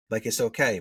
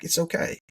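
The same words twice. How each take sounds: First: Said in the usual way. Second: Much higher, gentle soothing reassurance; reassuring. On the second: Retold or imitated. Consoling crying client.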